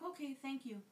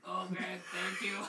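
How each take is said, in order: First: It is said in the speaker's normal voice. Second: It is said in a put-on imitating voice.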